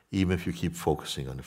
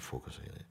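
First: Said in the usual way. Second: Focusing on it echoed in a soft whisper. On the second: Shown as a demonstration. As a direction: let the echo fade to a whisper. Soft echo of the phrase.

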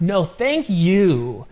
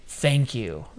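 First: Slow, higher "thank you", stretched on "you"; stress on "you". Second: Said in the usual way. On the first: Retold or imitated. Host replying to a grateful listener, stress on "you". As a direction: throw the thanks back, leaning on "you".

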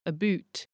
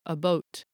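First: "about" said as "a boot"; long "oo" in "a boot"; oo vowel. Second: "about" said as "a boat"; long "oh" in "a boat"; o vowel. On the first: Narrator showing other accents' about, oo vowel. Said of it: "realised as an oo sound". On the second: Narrator showing other accents' about, o vowel. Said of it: "or an o sound". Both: Shown as a demonstration.

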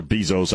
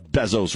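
First: Bezos said as BEE-zohz; long EE in the first syllable of Bezos. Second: Bezos said as BEZ-ohz; short E in the first syllable of Bezos. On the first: Host tries the other way, Bezos as BEE-zohz. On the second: Host unsure of the name, tries Bezos as BEZ-ohz. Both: Shown as a demonstration. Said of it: "however the hell you say it".

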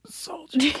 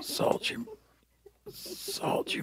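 First: High faint ghostly dying whisper; soft echoing dream voice. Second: High unvoiced ghostly whisper; soft echoing dream voice. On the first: Pretend. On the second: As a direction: fade away like a dying spirit. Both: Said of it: "can you do it as you die for me".

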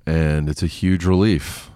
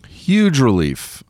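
First: Said in the usual way. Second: Huge said higher, slow and drawn out; stress on huge. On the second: Real, not acted. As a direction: lean hard on Huge, slowly. Emphatic repeat.

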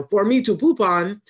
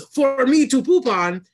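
First: A quick, half-voiced hint of a rude puppet dog, a bit higher and louder; light Triumph the Insult Dog impression. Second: Rude puppet dog voice, much higher and louder, slow, drawn-out punchline; full Triumph the Insult Dog impression. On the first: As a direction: toss off the insult dog's catchphrase lightly. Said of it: "the dog's answer for everything is". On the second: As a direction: land the insult dog's punchline after a pause, hammed up. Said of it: "there's a pause and he goes".

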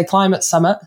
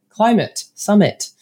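First: Climate Summit in a northern English accent. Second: Climate Summit said slowly with a careful standard vowel; careful corrected pronunciation. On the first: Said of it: "I think it's my northern accent". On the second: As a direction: say Climate Summit slowly and carefully, dropping the northern English accent. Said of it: "but that's not right anyway". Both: Shown as a demonstration.

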